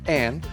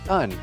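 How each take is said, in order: First: The vowel is a full short a sound. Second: The vowel is reduced to a schwa. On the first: "with a short a sound" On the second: "with a schwa sound, which is un"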